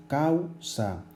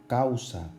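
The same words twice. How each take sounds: First: "causa" drawn out as cau-sa, higher pitched; syllable by syllable. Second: Said in the usual way. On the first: Shown as a demonstration. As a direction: hold the au of "causa" together, then add sa. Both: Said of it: "están dentro de la misma sílaba".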